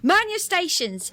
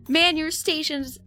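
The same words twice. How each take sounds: First: It is said in a put-on British accent. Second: It is said in the speaker's ordinary accent.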